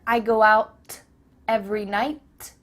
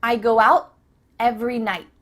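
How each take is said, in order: First: "out" and "night" with popped final t; wrong take, crisp t endings; released T. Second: "out" and "night" with no air on the t; unreleased final t, in two chunks; stopped T. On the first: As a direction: overdo the t in "out" and "night". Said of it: "Do you hear". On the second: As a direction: halt the tongue on t in "out", "night". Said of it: "it's just stopped". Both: Shown as a demonstration.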